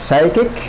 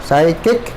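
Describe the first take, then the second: The two takes are said the same way.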